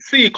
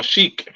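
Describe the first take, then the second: First: "Sheik" said like "seek"; pronunciation query. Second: "Sheik" said like "sheek"; pronunciation query. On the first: Co-host checking the name's pronunciation, "Sheik" as "seek". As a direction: open "Sheik" with a plain s sound. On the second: Co-host offering the other pronunciation, "Sheik" as "sheek". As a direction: open "Sheik" with a sh sound. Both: Shown as a demonstration. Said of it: "What do you pronounce it?".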